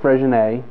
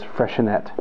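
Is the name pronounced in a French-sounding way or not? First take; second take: French; non-French. First: The name is said with French-sounding pronunciation. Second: The name is said without French-sounding pronunciation. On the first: The speaker calls it wrong. "It's not Freixenet, not a French word" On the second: The speaker calls it right. "it's Freixenet"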